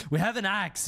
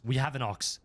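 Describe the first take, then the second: First: Said in the usual way. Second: AXE slipped into "ox"; "ox" in place of axe. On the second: Real, not acted. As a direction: say "ox" with a rounded vowel for axe. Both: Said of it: "We, ox?".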